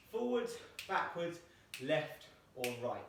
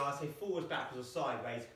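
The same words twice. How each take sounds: First: Slow demo. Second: Said in the usual way. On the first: Shown as a demonstration. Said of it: "So I can either say to you". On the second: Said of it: "I'll just say".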